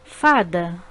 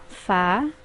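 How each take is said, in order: First: Said in the usual way. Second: Fa-da said as two separate beats; syllables split apart. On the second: Shown as a demonstration. Teacher showing pupils the two syllables of Fa-da. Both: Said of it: "uma palavra com duas sílabas".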